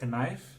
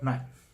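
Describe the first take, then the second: First: The K at the start is sounded. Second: The K at the start is silent. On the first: The speaker calls it wrong. "Not knife" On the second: The speaker calls it right. "Silent K"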